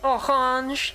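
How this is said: It is said with a French accent.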